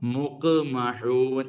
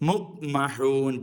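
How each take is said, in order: First: The q sound is released with a bouncing echo. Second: The q sound is closed without any echo. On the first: The speaker calls it right. "മുഖ്മഹൂൻ എന്ന് തന്നെ വേണം" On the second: The speaker calls it wrong. "അല്ലാതെ മുഖ്മഹൂൻ പോരാ"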